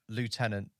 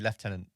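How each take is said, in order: First: It is pronounced the American way, as spelled. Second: It is pronounced the British way. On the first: "it's spelt lieutenant" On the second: "in the U K we say lieutenant"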